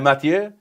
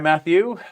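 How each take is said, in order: First: The name is said in a French accent. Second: The name is said in a plain English accent.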